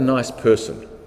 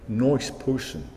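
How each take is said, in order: First: It is said in the speaker's ordinary accent. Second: It is said in a New York accent.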